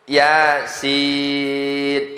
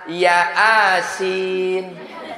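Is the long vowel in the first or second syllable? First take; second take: second; first. First: The second syllable is drawn out. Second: The first syllable is drawn out. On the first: The speaker calls it right. "yang panjangnya sinnya, yang bergelombang gitu tuh" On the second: The speaker calls it wrong. "Baca Latin, salah"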